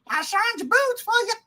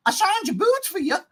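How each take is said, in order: First: Higher, put-on mother's voice; mock Ma Kent. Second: Higher mock mother's voice; mock Ma Kent. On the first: Host parodying Ma Kent's line again. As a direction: exaggerate her sweetness. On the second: Host mocking the line from Ma Kent. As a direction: quote her sweetly mocking. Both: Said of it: "Ma Kent".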